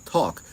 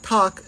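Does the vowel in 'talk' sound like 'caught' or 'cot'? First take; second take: caught; cot. First: The vowel sounds like the one in caught. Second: The vowel sounds like the one in cot. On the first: The speaker keeps the two vowels apart. "than talk" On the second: The speaker has the cot-caught merger. "saying something closer to talk"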